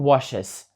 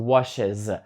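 First: The final sound is a voiceless s. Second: The final sound is voiced, close to z. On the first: The speaker calls it wrong. "Я не кажу washes" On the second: The speaker calls it right. "я кажу washes. Тобто ця S стає більш дзвінкою, вона стає наближеною до Z"

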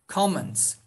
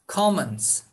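Both takes have the same delivery.

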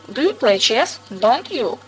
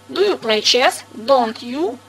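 First: The question sounds gentle and polite. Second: The question sounds hard and stern. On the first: A courteous check that the listener plays chess. "Это вежливый переспрос" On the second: A strict reprimand for not playing chess. "металл, как будто воздух наэлектризированный"

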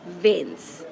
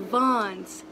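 First: The name is said with English sounds. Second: The name is said with French sounds. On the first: The speaker calls it wrong. "not Vence, which I've been saying the whole time" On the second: The speaker calls it right. "we in Vence"

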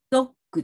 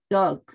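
First: It is said the Japanese way, as doggu. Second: It is said the English way, as dog. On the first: The speaker calls it wrong. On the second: The speaker calls it right.

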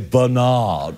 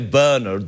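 First: The name is said the American way. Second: The name is said the British way. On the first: This is how Americans say the name. "they say Bernard" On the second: This is how people here say the name. "in America, they don't say Bernard"

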